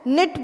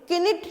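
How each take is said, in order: First: The word begins directly with an n sound. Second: The word begins with an audible k sound. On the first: The speaker calls it right. "निट बोलते हैं" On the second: The speaker calls it wrong. "किनिट नहीं बोलते हैं"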